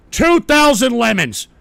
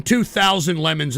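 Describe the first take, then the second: First: TWO THOUSAND LEMONS slowed and punched up; emphatic repeat. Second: Said in the usual way. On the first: Real, not acted. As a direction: announce "two thousand lemons" slowly and forcefully.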